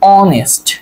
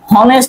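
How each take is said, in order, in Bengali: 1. শব্দটি একটি স্বরধ্বনি দিয়ে শুরু হয়। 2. শব্দটি একটি h ধ্বনি দিয়ে শুরু হয়। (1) "আপনি কি উচ্চারণ করেন, অনেস্ট" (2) "হনেস্ট উচ্চারণ করেন না"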